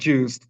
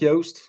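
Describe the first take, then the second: First: The name is said with a harder sound. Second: The name is said with a softer sound. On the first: This is the form most people got used to. "it does sound like juiced" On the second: This is truer to how the name should sound. "it's softer. It's like Yoast"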